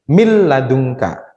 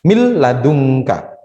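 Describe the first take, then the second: No difference in how they are said.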